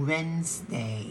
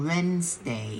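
The two takes are said the same way.

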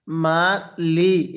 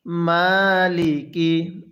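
First: মালি with the "li" wrongly drawn out; misplaced elongation. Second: মালিকি with long "maa", unstretched "li"; very slow, measured মালিকি, the long pull on the first syllable; correct elongation. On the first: Teacher shows a common mistake, stretched "li" in মালি. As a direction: stretch the second syllable of মালি as well as the first. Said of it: "এই লামের মধ্যেও টান দিয়ে থাকি". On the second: Teacher answers how to read it, elongated first syllable in মালিকি. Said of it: "তাহলে কিভাবে পড়ব?". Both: Shown as a demonstration.

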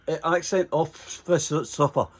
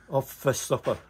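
First: "off fist upper" slowly in a Scottish accent, each word drawn out; explaining the Scottish accent, "off fist upper" slow and clear; Scottish accent spelled out. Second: "Off fist upper" in his own Scottish accent at normal speed; plain Scottish "Off fist upper". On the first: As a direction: stretch "off fist upper" carefully in broad Scots for the English cop. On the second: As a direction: say "Off fist upper" quickly in broad Scots. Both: Shown as a demonstration. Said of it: "It's a Scottish accent".

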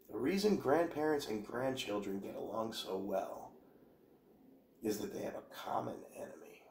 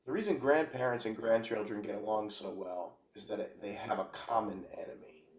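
First: Much softer, sinking into an unvoiced whisper; conspiratorial whisper. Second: Said in the usual way. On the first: Shown as a demonstration. Rereading the quote to viewers as a hushed whisper. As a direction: hush it like sharing a secret. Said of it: "second, whispered take of quote". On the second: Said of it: "repeats the line more quietly".

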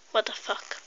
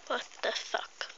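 First: Breathy unvoiced mutter; hushed disbelieving aside. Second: Much softer full whisper; whispered disbelief. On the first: Muttered aside after retelling. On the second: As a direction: whisper it to yourself. Repeated even quieter. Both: Real, not acted.

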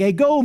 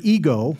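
First: "Ego" said as AY-go; Greek pronunciation. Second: "ego" said as EE-go; English pronunciation. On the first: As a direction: open "Ego" with an "ay" vowel, Greek-style. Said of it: "means I in the Greek". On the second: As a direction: open "ego" with a long "ee", as in English. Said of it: "We get the word ego from that". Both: Shown as a demonstration.

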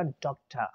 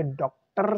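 First: "डॉक्टर" said as DOK-tuh, no R; British "डॉक्टर", breathy t then schwa; schwa ending. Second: "डॉक्टर" with the final R trilled; the unwanted "डॉक्टर", ending on a buzzing R; rolled R. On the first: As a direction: drop the R, end "डॉक्टर" on an open uh. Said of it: "इसकी जगह हम लगाएंगे श्वा". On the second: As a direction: roll out the last R of "डॉक्टर". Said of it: "से बन जाएगा डॉक्टर". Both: Shown as a demonstration.

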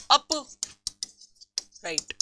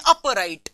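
First: upright drawn out very slowly and softly, in two parts; slow dictation. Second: Said in the usual way. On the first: Shown as a demonstration. Teacher spelling out a part's name for students, slow dictation. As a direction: break upright in two with a long gap, softly.

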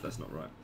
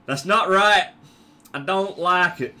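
First: Said in the usual way. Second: Loud, higher, badly faked American accent. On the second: Gamer objecting to himself, in a bad American accent. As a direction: push out a hammy American accent. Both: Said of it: "I've gone a very shit American accent".

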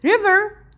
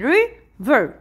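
First: Said in the usual way. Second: River broken into two beats, ri, ver; split into syllables. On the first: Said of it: "هون two syllable". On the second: Shown as a demonstration. Teacher showing a pupil two syllables, river split in two. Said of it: "يعني مقطعين".

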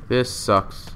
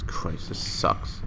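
First: Said in the usual way. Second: Under the breath; whispering. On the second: Real, not acted. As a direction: whisper it in disgust. Frustrated muttering to self.

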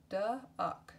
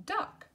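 First: Said in the usual way. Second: Squeaky high repeat. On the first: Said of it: "word said twice". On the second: Shown as a demonstration. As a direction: chirp duck up high for the kids. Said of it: "second take of word".

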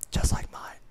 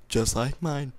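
First: Breathy unvoiced whisper. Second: Said in the usual way. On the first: Shown as a demonstration. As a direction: whisper it like a secret. Whispered repeat.

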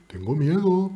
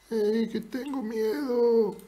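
First: Said in the usual way. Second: High, soft, drawn-out silly voice; put-on voice. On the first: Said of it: "No con esa voz, pero con otra". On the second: Shown as a demonstration. Streamer showing a rival another voice for admitting fear, put-on voice. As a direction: say it slowly in a small high voice. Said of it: "pero con otra puedes decirlo".

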